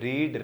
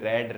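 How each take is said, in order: First: The vowel is long, as in need. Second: The vowel is short, as in bed. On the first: It is the base form of the verb. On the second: It is the third form of the verb.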